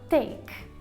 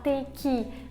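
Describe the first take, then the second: First: It is said quickly as one short syllable. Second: It is said with a strong final syllable. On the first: The speaker calls it right. "Rápido" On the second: The speaker calls it wrong. "eu não posso falar take"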